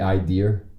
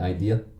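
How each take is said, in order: First: An R sound is added at the end. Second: There is no R sound at the end. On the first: The speaker calls it wrong. "why is the R in there? ... it's like people that say idea" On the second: The speaker calls it right. "When they mean idea"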